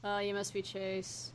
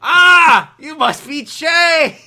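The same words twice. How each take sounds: First: Quiet, slow, understated park ranger. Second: Loud, high, drawn-out cartoon shout; startled cry, then stretch it out loudly; TV cartoon park ranger. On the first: Acted. Park ranger meeting Chase, understated movie-style voice. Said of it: "I'll do the park ranger from Yogi Bear". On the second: Showing the TV show's ranger greeting Chase, exaggerated shout. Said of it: "if you were from the T V show".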